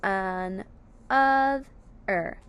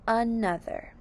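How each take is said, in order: First: An, of, er as three separate syllables; short pause after each of an, of, er; split into syllables. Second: Said in the usual way. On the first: Shown as a demonstration. Teacher giving the three syllable word, split into syllables. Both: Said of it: "three syllable word is".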